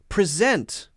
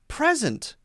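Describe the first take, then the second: First: The stress is on the second syllable. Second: The stress is on the first syllable. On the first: It is a verb. "If it's a verb, it's usually going to stress the second syllable" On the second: It is a noun or adjective. "If it's a noun or an adjective, then we'll stress the other syllable, the first syllable"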